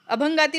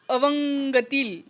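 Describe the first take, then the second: First: The second consonant is an aspirated 'bh'. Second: The second consonant is a soft 'v'. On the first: The speaker calls it right. "अभंगातील म्हणायचं" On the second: The speaker calls it wrong. "तर अवंगतील"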